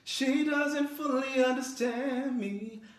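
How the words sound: It sounds outward, as if said to a friend. The speaker is confiding in someone else. "versus talking to a friend"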